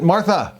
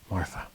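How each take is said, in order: First: The name is said loudly. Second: The name is said quietly. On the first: He wants to get her attention. "to get her attention?" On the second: He already has her attention. "And once she looked at him"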